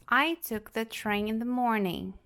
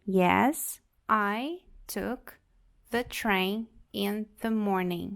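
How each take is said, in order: First: Said in the usual way. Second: "the train in the morning" stretched out slowly; slow model answer. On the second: Shown as a demonstration. Teacher repeating the answer slowly for the class. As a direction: drag it out clearly. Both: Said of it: "uma possível resposta".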